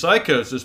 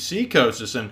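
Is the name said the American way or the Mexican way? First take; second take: American; Mexican. First: The name is said the American way. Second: The name is said the Mexican way. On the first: "in America, he's Psychosis" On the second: "but in Mexico, he's Seacosis"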